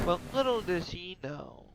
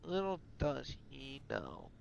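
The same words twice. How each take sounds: First: Said in the usual way. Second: Slow, hushed foreboding; ominous repeat. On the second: A narrator's reading.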